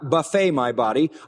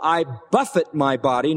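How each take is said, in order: First: Buffet is stressed on its last syllable. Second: Buffet is stressed on its first syllable. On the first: The body is given a spread of food. The speaker calls it wrong. "not buffet my body" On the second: The body is struck or punched. The speaker calls it right.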